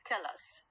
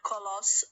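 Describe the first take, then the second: First: The second syllable has a weak schwa vowel. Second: The second syllable has a full o vowel. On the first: The speaker calls it right. "وإنما colors تتحول من O إلى what؟ إلى شوا" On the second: The speaker calls it wrong. "not colors"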